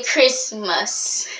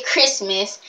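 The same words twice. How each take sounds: First: Christmas drawn out in two slow parts; imitating an annoying way of saying Christmas; mocked pronunciation. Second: Said in the usual way. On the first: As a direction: stretch out Christmas, leaning on the last syllable. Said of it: "they say Christmas". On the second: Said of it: "They don't say Christmas".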